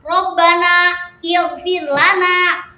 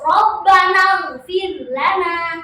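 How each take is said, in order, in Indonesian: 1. Ada jeda setelah rabbana. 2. Rabbana langsung tersambung ke ighfir. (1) "kalau jeda-jeda seperti itu" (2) "kalau kasusnya di wasol"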